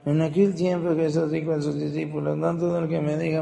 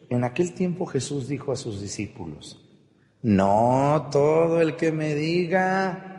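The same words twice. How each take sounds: First: It is read hurriedly without clear pauses. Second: It is read carefully with clear pauses.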